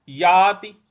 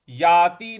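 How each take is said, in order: First: याति with long आ and short ति; the right याति, clean and short; correct याति. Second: याति said the wrong way; the incorrect याति as a contrast; याति as not to say it. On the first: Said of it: "याति इस प्रकार से बोलेंगे". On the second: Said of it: "याति नहीं बोलना है". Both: Shown as a demonstration.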